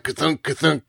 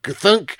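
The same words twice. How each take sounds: First: Heavy clunk. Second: A single heavy stamp noise, voiced; heavy clunk. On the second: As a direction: thud it out like a rubber stamp. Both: Shown as a demonstration. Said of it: "machines that make that sound … I'm making it anyway".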